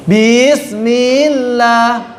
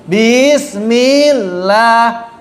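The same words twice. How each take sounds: First: Bismillah slow with a crisp, short bi; clear ba. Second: Bismillah with bi drawn out long; stretched bi. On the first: Teacher modelling a clear short bi. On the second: Teacher imitating the wrong long bi. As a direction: say bismillah dragging the bi. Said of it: "Itu menambah huruf". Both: Shown as a demonstration.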